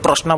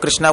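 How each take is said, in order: First: कृष्णा said as "kroshna"; variant pronunciation. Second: Said in the usual way. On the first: Shown as a demonstration. Teacher quoting how some devotees say it, कृष्णा as "kroshna". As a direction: round the first vowel of कृष्णा to an o: "kroshna". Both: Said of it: "कुछ लोग कृष्णा बोलते हैं".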